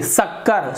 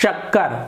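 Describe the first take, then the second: First: The word begins with a plain 's' sound. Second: The word begins with a palatal 'sh' sound. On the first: The speaker calls it wrong. "जीभ को तो स, तो यहाँ पर शक्कर ... गलत है शक्कर" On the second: The speaker calls it right. "जीभ का किनारा जब हमारे तालू से टकराया ऊपर तो फिर वहां पर श का उच्चारण होता है"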